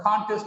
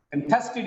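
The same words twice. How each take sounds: First: "contest" as CON-test; first-syllable stress. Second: "Contested" as con-TEST-ed; weak first syllable, strong TEST in "Contested"; second-syllable stress. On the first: Teacher contrasting noun with verb, stress on CON in "contest". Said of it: "contest is a noun". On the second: Teacher contrasting verb with noun, stress on TEST in "Contested". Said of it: "Contested is a verb". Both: Shown as a demonstration.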